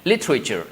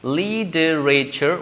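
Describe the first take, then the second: First: It is said with three syllables. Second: It is said with four syllables. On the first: "in you know British pronunciation" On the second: "we have four uh, syllables"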